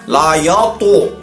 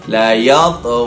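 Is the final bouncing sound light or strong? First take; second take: strong; light. First: The final consonant bounces strongly, like an added vowel. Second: The final consonant bounces lightly and softly. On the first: The speaker calls it wrong. "jangan kuat sangat, jangan besar sangat" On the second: The speaker calls it right.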